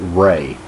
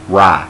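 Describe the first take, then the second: First: The vowel rhymes with 'day'. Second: The vowel rhymes with 'eye'. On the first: The speaker calls it wrong. "Now I pronounce it Ray" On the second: The speaker calls it right. "Excuse me, Rye, because it's like samurai"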